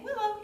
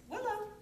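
First: Said in the usual way. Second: High, bright call of "Willow"; happy name call. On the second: Shown as a demonstration. Trainer calling puppy "Willow" in a happy tone. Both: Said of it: "in a happy tone of voice".

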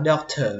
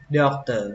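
First: "doctor" with aspirated t, as dok-thuh; "doctor" ending in an airy thuh; second reading. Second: "doctor" with unaspirated t, as dok-tuh; "doctor" ending in a plain tuh; first reading. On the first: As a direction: puff air on the t of "doctor". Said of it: "Cách đọc thứ hai các bạn có thể đọc là". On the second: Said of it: "Cái chữ này các bạn đọc là". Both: Shown as a demonstration.

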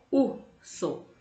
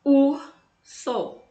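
First: Said in the usual way. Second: Urso said loud and high, punching the U; teacher calls the word out to the class; loud emphatic demo. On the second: Shown as a demonstration. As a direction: belt out Urso so the first sound rings. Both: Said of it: "olha o som".

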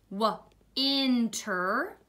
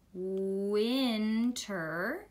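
First: "Winter" broken after the w, then "inter"; sounding out in parts. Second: "Winter" with a long held first sound, rising end. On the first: Teacher decoding the first word, "Winter" split after w. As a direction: say "Winter" as w, pause, "inter", rising. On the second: Teacher decoding the first word, "Winter" drawn out smoothly. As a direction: stretch "Winter" out, blending slowly from a drawn w. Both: Shown as a demonstration. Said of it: "see if we can figure it out".

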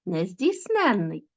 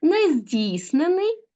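First: Нездійсненний slow, stress on -NEN-, falling end; stress on the suffix. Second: Нездійснений slow, -DIIS- stretched high, rising end; stress on the root. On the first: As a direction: lean on -NEN- in нездійсненний, then fall. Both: Shown as a demonstration. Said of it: "звертайте увагу на наголос".

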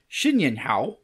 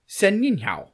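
First: "Xin Yin Hao" with a "shin" opening, usual pitch; Mandarin version. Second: "Sen Yin Hao" with a "sen" opening, pitched higher; Cantonese version. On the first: Host demonstrates the greeting, "Xin Yin Hao" in attempted Mandarin. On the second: Host demonstrates the greeting, "Sen Yin Hao" in attempted Cantonese. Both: Shown as a demonstration. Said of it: "That's in Mandarin and Cantonese".

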